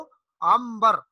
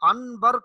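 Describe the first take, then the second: First: An m sound is said before the b. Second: An n sound is said before the b. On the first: The speaker calls it right. "नून को मीम से तब्दील कर देते हैं" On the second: The speaker calls it wrong. "यानी नून नहीं पढ़ा जाता"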